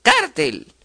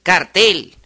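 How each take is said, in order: First: Cártel stressed on CÁR, rising high; stress on first syllable. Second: Cartel stressed on the final TEL; stress on last syllable. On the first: Teacher showing the grave form, CÁR-tel. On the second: Teacher showing the aguda form, car-TEL. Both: Shown as a demonstration.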